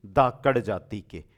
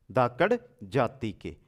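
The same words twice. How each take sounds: The two takes are said the same way.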